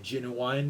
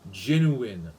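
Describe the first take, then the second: First: The last syllable sounds like 'wine'. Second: The last syllable sounds like 'in'. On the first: "that's how they say in uh, the the rap music songs" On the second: "the preferred pronunciation was genuine"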